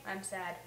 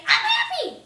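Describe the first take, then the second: First: Low, soft, glum "I'm sad". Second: High, loud, cheery "I'm happy". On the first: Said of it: "than to say". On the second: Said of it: "so much more fun to say". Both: Shown as a demonstration.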